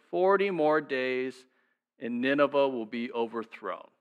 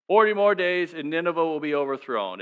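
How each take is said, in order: First: Slow and deliberate, each word weighed; slow, weighty reading. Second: Said in the usual way. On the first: Shown as a demonstration. Pastor reading Jonah's message to the congregation, slow and grave. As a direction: read the prophecy slowly, like a verdict.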